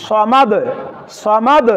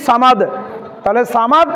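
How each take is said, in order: First: সমাদ with heavy 'saw' and bouncing d; correct thick saad. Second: সামাদ with a light s and open 'aa'; mistaken thin sa. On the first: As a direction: round the s of সমাদ, release the d. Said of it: "সঠিকটা কি". (সমাদ-এর স মোটা করে) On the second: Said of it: "এটা হচ্ছে ভুল". (সামাদ-এর সা পাতলা করে) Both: Shown as a demonstration.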